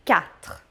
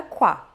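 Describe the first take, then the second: First: "quatre" slowly as "kat", no w; French quatre, slow. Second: "qua" with a w sound as in Portuguese; wrong qua. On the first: Teacher models the correct quatre to students. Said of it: "diga quatre". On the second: Teacher shows the common mistake to students. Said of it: "Não diga qua". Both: Shown as a demonstration.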